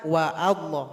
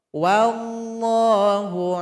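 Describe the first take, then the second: First: A glottal stop separates wa from Allah. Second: Wa runs straight into llahu with no break.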